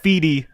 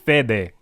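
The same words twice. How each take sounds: First: The name is said with an English accent. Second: The name is said with a Spanish accent. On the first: The speaker calls it wrong. "it's not Fede. I've heard you guys say Fede" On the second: The speaker calls it right.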